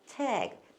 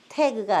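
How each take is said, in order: First: It is said the English way, sound drawn inward. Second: It is said with Korean-style syllables. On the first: The speaker calls it right. "입속 안으로 이렇게 끌려가야 됐어" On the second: The speaker calls it wrong. "태그가 아니고"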